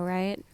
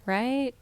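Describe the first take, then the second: First: Said in the usual way. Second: Right said higher and louder, rising hard; a louder, higher fishing-for-agreement Right; pushing for agreement. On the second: Real, not acted. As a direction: press them to agree with Right. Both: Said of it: "Nah, just me".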